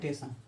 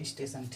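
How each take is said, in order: First: The word starts directly with 't', no 's'. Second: The word starts with a tight 'st' cluster. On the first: Some people drop the first sound. "सिर्फ टेशन" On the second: This is the standard, pure pronunciation. "कुछ लोग शुद्ध बोलते हैं स्टेशन"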